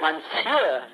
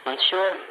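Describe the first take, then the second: First: Monsieur said as mon-SUER, carefully copied; corrected Monsieur. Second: Monsieur said as MAWN-shur, rising like a question; unsure Monsieur. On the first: Shown as a demonstration. After being corrected, a careful Monsieur. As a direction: repeat Monsieur after the teacher, falling. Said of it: "How do you say that?". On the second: Real, not acted. To the host, an unsure Monsieur. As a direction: try out Monsieur with a rising, doubtful tune. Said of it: "I'm sure I'm not pronouncing that right".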